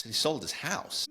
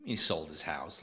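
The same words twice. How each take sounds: First: Higher, slow stunned repeat of sold; disbelieving repeat. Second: Quiet aside. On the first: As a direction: drag out sold, high and amazed. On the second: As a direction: lower and softer, muttered to himself. Repeating the news in disbelief. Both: Acted.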